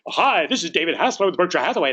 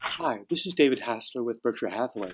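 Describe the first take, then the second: First: It is said loudly and briskly. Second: It is said quietly and gently. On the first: The caller ignores the other person's manner. The speaker calls it wrong. "then you better not say" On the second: The caller matches the other person's manner. The speaker calls it right. "If it's a quiet person, then say"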